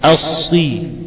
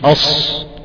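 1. ينتهي المقطع بكسرة. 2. لا ينتهي المقطع بكسرة. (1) "لا أصي، اكسر" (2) "مش أص الصراط"

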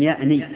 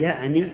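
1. لا توجد حركة بعد النون الأخيرة. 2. تليها الحركة (i). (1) "لم يأني غلط، كيف لم يأني بالسكون النون؟" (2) "النون مكسورة"

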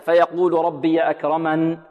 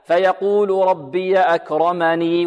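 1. تتوقف الجملة وتُحذف الحركة الأخيرة. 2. يُنطق الحرف الأخير ويستمر الكلام. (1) "إذا وقفنا عليها هكذا" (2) "وإذا وصلناها هكذا"

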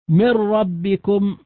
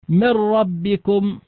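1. تندغم النون تماما في راء مشددة. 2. تندغم النون تماما في راء مشددة.

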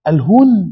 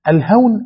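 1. تُنطق الكلمة بصوت u. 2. تُنطق الكلمة بصوت a. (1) "الهون من الذل" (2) "الهون من الإيه؟ من التيسير"

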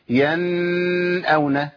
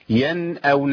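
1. النون تُمدّ أكثر من اللازم. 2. تُنطق النون بوضوح وبإيجاز. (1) "ولا اقول ينأون لان زودت الزمن زياده" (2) "بتظهر عندهم ايه؟ النون الساكنه"

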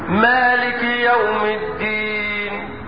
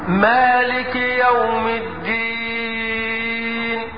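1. الحركة الأخيرة قصيرة، حركتان. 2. الحركة الأخيرة طويلة جداً، ست حركات. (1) "قصر حركتين" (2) "طول ست"

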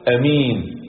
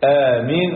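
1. الحركة الأولى قصيرة. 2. الحركة الأولى ممدودة. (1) "يجوز فيه مد الهمزة وقصرها" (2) "يجوز فيه مد الهمزة وقصرها"

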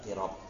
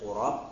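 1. Vokal pertama adalah bunyi 'i' depan. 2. Vokal pertama adalah bunyi 'u' yang membulat. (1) "wa qila bi kasriha" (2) "bi dhammi al-qaf"

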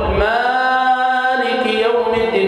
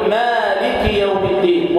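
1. تُطال حروف المد أكثر من اللازم بكثير. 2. تُمدّ حروف المد حركتين فقط. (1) "يبالغ مبالغة كبيرة في المد الطبيعي" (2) "مد طبيعي يمد بمقدار حركتين"

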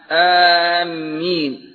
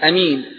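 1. أول حرف مد طويل مع ميم مضعّفة. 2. أول حرف قصير مع ميم واحدة. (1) "والرابعة بتشديد الميم مع المد" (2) "والثانية بالقصر"

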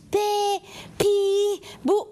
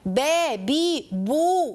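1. الحركات مرتخية، مع تشكيل بسيط للشفتين. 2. الحركات دقيقة، مع شفتين مستديرتين بوضوح. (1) "مش با بي بو" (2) "لا با بي بو"

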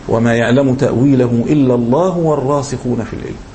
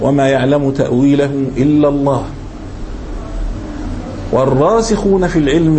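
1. يستمر الكلام بعد 'Allah' ويقف بعد 'al-ilm'. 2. يقف مباشرة بعد 'Allah' ثم يكمل. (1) "هذا هو الوقف الأصح" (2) "فعلى الوقف وما يعلم تأويله إلا الله"

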